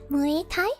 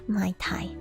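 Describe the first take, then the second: First: The first word has two vowel parts, 'moo-ay'. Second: The first word sounds like 'my', like the cocktail. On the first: The speaker calls it right. "Is that closer?" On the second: The speaker calls it wrong. "I feel like I'm pronouncing it like some sort of cocktail"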